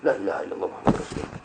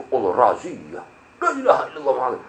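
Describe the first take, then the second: First: Rushed, breathless whisper of the shahada. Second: Hushed panicked prayer. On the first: Rider reciting the shahada at the police raid, fast whisper. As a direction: whisper the prayer fast in mock fright. Retold panicked prayer, whispered. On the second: Rider spotting a police raid, hushed mock panic. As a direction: mutter the shahada under your breath in mock fright. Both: Retold or imitated.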